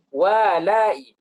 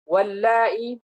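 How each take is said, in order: First: "Wa lai" with a single l; untaught misreading. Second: "Wal lai" with a held double l; doubled lam. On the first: Teacher imitates those who haven't studied, "Wa lai" with single l. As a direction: split "Wa lai" after an open wa. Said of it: "Kalau kita nggak belajar". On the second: Teacher shows the dropped lam, "Wal lai" with doubled l. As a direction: lean on the l joining "Wal lai". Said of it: "lam yang dibuang". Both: Shown as a demonstration.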